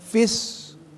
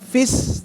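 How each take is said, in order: First: The s sound is heavy and emphatic. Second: The s sound is light and thin. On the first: The speaker calls it right. "tapi fis tetap" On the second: The speaker calls it wrong. "Bukan fis"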